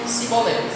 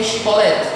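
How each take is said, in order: First: The word begins with an 's' sound. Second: The word begins with a 'sh' sound. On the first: The speaker belongs to the group lacking this sound. The speaker calls it wrong. "Eles não tinham o som de X" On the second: The speaker belongs to the group that has this sound. The speaker calls it right. "diga Shibolete"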